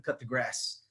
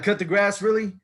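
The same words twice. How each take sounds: First: Said in the usual way. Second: Louder, questioning disbelief; incredulous echo. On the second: Acted. New hire echoing the boss's request, incredulous. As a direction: throw the request back in disbelief.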